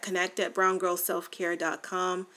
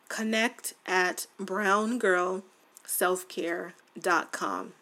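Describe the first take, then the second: First: It is said very fast. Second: It is said slowly and clearly.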